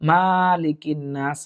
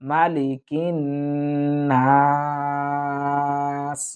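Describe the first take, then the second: First: The first vowel is drawn out long. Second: The first vowel is kept short and quick. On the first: The speaker calls it wrong. "এখানে আমরা অনেকেই ভুল করে থাকি" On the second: The speaker calls it right. "মিম জবর মা, টানবো না"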